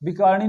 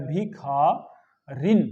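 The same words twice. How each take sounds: First: भिखारिणी quick, र and णी run together; wrong form. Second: भिखारिन very slow and lower, खा stretched; correct form. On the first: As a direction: rattle off भिखारिणी with short i dropped. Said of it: "नहीं होता". (भिखारिणी का अशुद्ध, जल्दी वाला उच्चारण) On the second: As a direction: break भिखारिन into long, clear syllables. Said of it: "ये शुद्ध शब्द होता है". (भिखारिन का शुद्ध उच्चारण, खूब खींचकर) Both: Shown as a demonstration.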